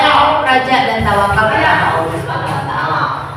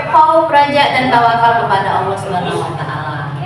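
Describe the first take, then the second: The two takes are said the same way.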